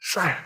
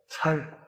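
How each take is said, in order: First: It is said with a tense standard s. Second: It is said Gyeongsang-style with a plain s.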